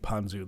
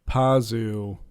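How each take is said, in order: First: An n sound comes before the z. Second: No n sound comes before the z. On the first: The speaker calls it wrong. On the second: The speaker calls it right.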